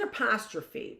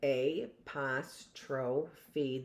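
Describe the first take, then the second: First: Said in the usual way. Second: Apostrophe very slowly as ay-pos-tro-fee, low and soft; phonetic pronunciation. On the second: Shown as a demonstration. Teacher showing how it's pronounced, apostrophe sounded out slowly and phonetically. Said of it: "I sometimes pronounce things phonetically".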